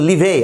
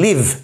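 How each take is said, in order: First: An extra vowel is sounded at the end. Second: The word ends on the consonant, no vowel. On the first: The speaker calls it wrong. "আমরা বলছি না কিন্তু লিভে" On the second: The speaker calls it right. "ইয়ের উচ্চারণটা হচ্ছে না, silent ই"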